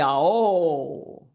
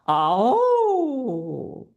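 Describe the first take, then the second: First: The vowel is produced in a heavier chest voice. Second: The vowel is produced in a light head voice. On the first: The speaker calls it wrong. "So it could be oh" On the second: The speaker calls it right. "it's more effective if it's in head voice"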